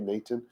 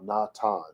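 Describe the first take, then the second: First: The first vowel sounds like 'ay', with 'th'. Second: The first vowel sounds like 'ah', with 't'. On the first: The speaker calls it wrong. "It's not a. That's the wrong sound" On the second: The speaker calls it right. "The syllable should be ah"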